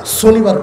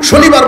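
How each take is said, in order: First: "শনিবার" said as "sonibar", with a plain s; Old Dhaka S for SH. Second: "শনিবার" with a clear initial sh; standard SH sound. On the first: Preacher imitates Old Dhaka speech, s opening in "শনিবার". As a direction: swap the sh of "শনিবার" for s. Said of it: "স উচ্চারণ করে". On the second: Preacher shows what Old Dhaka people cannot say, sh in "শনিবার". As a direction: open "শনিবার" on a hushing sh. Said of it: "শনিবার বলতে পারে না". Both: Shown as a demonstration.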